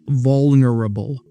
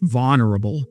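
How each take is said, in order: First: The L sound is clearly pronounced. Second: The L sound is dropped or barely heard. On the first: "I say it so you can hear the L"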